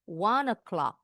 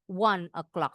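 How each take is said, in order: First: The two words run together without a break. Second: The two words are said separately. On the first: "Bacanya disambung" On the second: "Bukan berarti bilang one o'clock, salah, betul juga"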